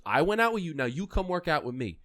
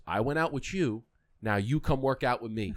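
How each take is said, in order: First: High, loud and pointed, like a dare; louder teasing Kobe. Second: Said in the usual way. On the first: Retold or imitated. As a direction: throw the line back at them with a grin. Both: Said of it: "He goes".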